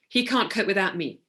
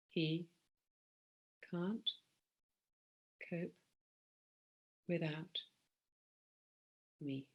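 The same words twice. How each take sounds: First: It sounds emotionally caught up and insistent. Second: It sounds calm and observed from a distance. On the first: The speaker fully identifies with the belief. The speaker calls it wrong. "I'm absolutely aligned with my belief" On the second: The speaker watches the belief without identifying with it. The speaker calls it right. "I'm inviting you to do this one"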